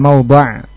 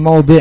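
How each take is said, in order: First: The last syllable has the vowel 'a'. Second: The last syllable has the vowel 'i'. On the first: The speaker calls it wrong. "bukan mawdha'" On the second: The speaker calls it right. "tapi mawdi'"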